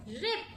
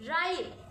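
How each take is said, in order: First: "रिप" with short "i" as in pig; short I sound. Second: "राइट" with a long "eye" vowel; long I sound. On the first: Teacher contrasts words without and with E, short sound. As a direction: keep the vowel brief in "रिप". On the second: Teacher contrasts words without and with E, long sound. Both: Shown as a demonstration. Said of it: "how the sound changes by adding E".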